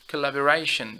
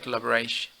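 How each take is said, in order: First: Every syllable is fully pronounced. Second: The last syllable is dropped. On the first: The speaker calls it right. "make sure you articulate the word fully" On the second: The speaker calls it wrong. "don't say collaboration"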